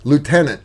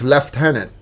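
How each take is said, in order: First: It is said in an American accent. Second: It is said in a British accent. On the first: "It's like uh" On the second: "if you're in the British Army, it's"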